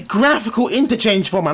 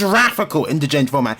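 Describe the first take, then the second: First: The first word starts with a hard G sound. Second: The first word starts with a J sound. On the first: The speaker calls it right. "It is a graphical interchange format" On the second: The speaker calls it wrong. "not a graphical interchange format"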